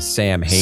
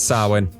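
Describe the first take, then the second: First: It sounds like the two words Sam and Hain. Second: It does not sound like Sam and Hain. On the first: The speaker calls it wrong. "if you look, pronounce that word phonetically" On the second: The speaker calls it right. "But it's Samhain"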